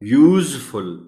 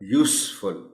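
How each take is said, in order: First: The middle consonant is a 'z' sound. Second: The middle consonant is an 's' sound. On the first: The speaker calls it wrong. "यूजफुल नहीं पढ़ा जाएगा" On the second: The speaker calls it right. "Noun के तौर पर इस्तेमाल हुआ है इसलिए इसे पढ़ा जाएगा"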